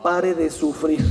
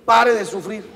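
First: Mocking slogan. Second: Said in the usual way. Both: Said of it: "la secta esta, ¿cómo se llama?".

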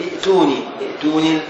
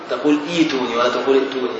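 First: Teacher demonstrates the wrong form ائتوني; wrong reading, hamza kept. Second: ايتوني said with a long i, no hamza, quick; teacher gives the right form ايتوني; correct reading. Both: Shown as a demonstration.

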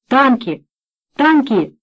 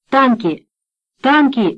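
First: Shouted alarm from next room; distant alarmed shouting. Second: Shouted alarm, rising; storming off shouting. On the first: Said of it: "доносился голос Марганака". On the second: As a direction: shout the warning. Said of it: "кричал Марганак". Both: A narrator's reading.

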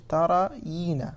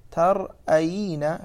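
First: "ترين" slowly as ta-ra-yiina, no glottal stop; without hamza. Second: "ترأين" slowly as tar-'ayiina, with glottal stop; with hamza. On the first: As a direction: stretch "ترين" smoothly, hamza left out. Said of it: "بحذف الهمزة". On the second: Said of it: "فيصير ترين". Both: Shown as a demonstration.

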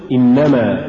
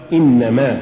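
First: إنما as one word, ما unstressed; joined form. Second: إنما as إنَّ + ما, two words; separated form. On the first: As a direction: bind ما onto إن in إنما. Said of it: "الموصولة". («إنما» موصولة) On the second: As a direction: give ما its own weight in إنما. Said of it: "والمفصولة". («إنما» مفصولة) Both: Shown as a demonstration.

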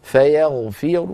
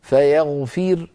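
First: Slow فيغفر with a heavy r and a slight u; stop with rawm. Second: Slow فيغفر closing on a thin, vowelless r; light ra at stop. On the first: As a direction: end فيغفر on a heavy ر plus a partial damma. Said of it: "إذن أقف بالروم أيضًا كذلك". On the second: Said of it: "فأقف عليها مرققة". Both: Shown as a demonstration.

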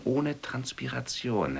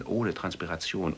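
First: "ohne" lifted high and slowed; stress on OHNE. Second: Said in the usual way. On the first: Shown as a demonstration. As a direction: drag out "ohne Transpiration" with a high "ohne". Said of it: "repeated slower". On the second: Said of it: "repeated with stress".

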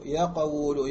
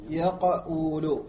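First: يقول said as yaqawlu with the extra vowel; يقول given its reconstructed vowels, not the real form; underlying form. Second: يقول said syllable by syllable at a crawl; drawn-out demo of يقول. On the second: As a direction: stretch يقول very slowly, every vowel held. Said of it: "مضارعه". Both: Shown as a demonstration.

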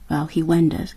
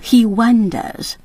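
First: Said in the usual way. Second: He wonders said slowly, leaning on he; slowly stressed. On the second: Shown as a demonstration. Host singling out the key phrase for learners, slow and deliberate. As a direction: draw out he wonders to point at the phrase. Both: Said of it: "这里面用了一个字".

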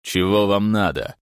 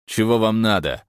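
First: Rude. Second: Rude, louder. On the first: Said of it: "грубо ответил". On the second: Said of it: "повторил мужчина". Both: A narrator's reading.

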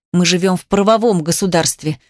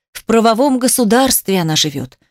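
First: Measured, slightly low-pitched assertion; cold spite. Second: Mocking echo. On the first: Angry wife cites the law to husband, cold spite. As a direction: state the law at him, firmly. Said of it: "злобно на него посмотрела и продолжила". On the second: Angered husband parrots wife's legal claim, mocking. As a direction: throw her words back, a touch sing-song. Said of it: "Эмиль разозлился ещё больше". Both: A narrator's reading.

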